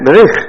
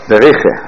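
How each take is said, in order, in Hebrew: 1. המילה מסתיימת בעיצור חסר תנועה. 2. המילה מסתיימת בצליל תנועה נוסף. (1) "זה שווה נח, בריח" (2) "אם אתה עושה בריחה, עשית אותו שווה נע"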